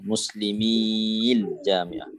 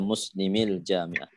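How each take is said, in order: First: The vowel before the 'l' is drawn out long. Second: The vowel before the 'l' is kept short. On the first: The speaker calls it wrong. "Kalau ada pada bacaan, dia akan jadi panjang" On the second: The speaker calls it right. "Dia baca muslimil jamiah"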